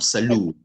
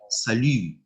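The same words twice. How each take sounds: First: The last vowel is an English-like oo sound. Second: The last vowel is a rounded French u. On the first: The speaker calls it wrong. "and not salut" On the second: The speaker calls it right. "we would say salut"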